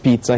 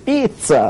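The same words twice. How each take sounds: First: It is said in a neutral accent. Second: It is said in an Italian accent.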